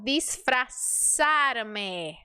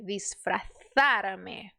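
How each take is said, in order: First: The z is said as an s sound. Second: The z is said as a th sound. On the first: This is the Latin American way of saying it. "Você olhou para a letra Z e você vai mandar o som do S" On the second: This is the way it is said in Spain. "um espanhol diria disfrazar-me"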